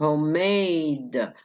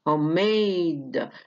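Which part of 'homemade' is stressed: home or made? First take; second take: made; made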